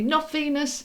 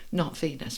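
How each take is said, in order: First: High, sharp emphatic "Not Venus"; relaying a message, high and insistent; emphatic correction. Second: Gently repeating the correction, softer. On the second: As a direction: lower and softer "not Venus", falling away. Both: Retold or imitated. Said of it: "they're just saying to me".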